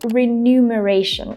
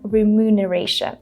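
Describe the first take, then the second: First: The M and N sounds are swapped: renumeration. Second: The M comes before the N: remuneration. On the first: The speaker calls it wrong. "I used to say" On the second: The speaker calls it right. "instead of remuneration"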